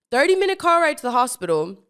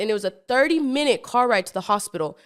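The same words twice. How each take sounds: First: Higher and louder, rising on car; emphatic repeat. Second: Said in the usual way. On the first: Shown as a demonstration. Retelling the long drive, emphatic and pitched up. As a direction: stress the whole ride, rising on car. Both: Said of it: "repeats for emphasis".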